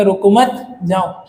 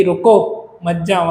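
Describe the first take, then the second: First: "रुको मत" run together, then a break before "जाओ"; pause after मत. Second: "रुको" set apart, then "मत जाओ" together; pause after रुको. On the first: Teacher showing how a moved comma changes the sense, pause after "मत". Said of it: "half stop को हटा के". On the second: Teacher showing the comma telling someone to stay, pause after "रुको". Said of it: "half comma लगा दूंगा". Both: Shown as a demonstration.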